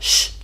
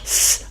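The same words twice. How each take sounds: First: The s is retracted, sounding more like sh. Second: The s is a sharp front hiss. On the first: "but S" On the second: "so not S"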